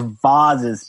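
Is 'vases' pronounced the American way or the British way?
British. The word is said with a British pronunciation.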